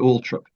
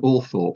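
First: The h after the t is silent. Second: The h after the t is pronounced. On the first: The speaker calls it right. "the correct pronunciation was actually" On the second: The speaker calls it wrong. "so that people would spell it correctly"

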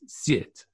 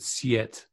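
First: The first consonant is softened without a separate y. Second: A separate y sound follows the first consonant. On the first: The speaker calls it right. "It's called siet" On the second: The speaker calls it wrong. "I think I was too gross in my pronunciation. I said siet. That's just not right"

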